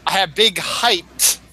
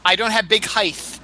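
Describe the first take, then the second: First: HEIGHT ending in a crisp T; standard height. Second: "height" ending in TH, like width; mispronounced height. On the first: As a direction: say "height" with a final T sound. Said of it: "It's height". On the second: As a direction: say HEIGHT as "highth". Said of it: "width has that T H to it". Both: Shown as a demonstration.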